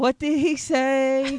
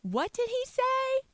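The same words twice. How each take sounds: First: High, slow, loud mocking copy; hammed-up copy of her sassy line; imitating sassy voice. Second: High, slow, sassy disbelief; drawn-out mock outrage. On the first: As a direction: parrot her sassy squeal back. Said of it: "that's a strange thing that you just did". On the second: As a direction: gasp out the question scandalised. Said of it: "Or you could say".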